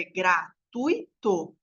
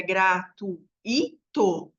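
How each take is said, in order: First: "gratuito" in three slow beats, gra, tui, to; ditongo, separado. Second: "gratuito" in four spaced beats, gra, tu, Í, to; hiato, separado. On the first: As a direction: split "gratuito" keeping tui as one syllable. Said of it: "Não é o caso". ("gratuito" devagar, separado em gra-tui-to) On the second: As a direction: split "gratuito" so the i stands alone and strong. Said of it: "o I teria acento". ("gratuito" separado em gra-tu-í-to) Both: Shown as a demonstration.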